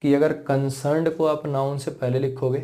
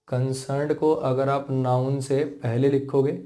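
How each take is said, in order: First: Said in the usual way. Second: A bit slower, with a pause before it; slower repeat. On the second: Shown as a demonstration. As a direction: repeat it more slowly for clarity. (दोबारा थोड़ा धीरे समझाते हुए) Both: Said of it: "फिर से देखो समझा देता हूँ".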